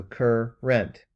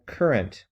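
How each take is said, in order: First: "cur, rent" with a clear pause between the syllables; "cur" then "rent", each syllable set apart; split into syllables. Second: Said in the usual way. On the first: Shown as a demonstration. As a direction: break "cur" and "rent" apart slowly, like a teacher. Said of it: "second syllable is rent". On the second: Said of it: "C U R is the first syllable".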